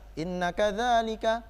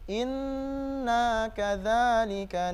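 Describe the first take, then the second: First: The nasal n sound is cut short. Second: The nasal n sound is held long. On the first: The speaker calls it wrong. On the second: The speaker calls it right. "tapi harus dengan gunnah"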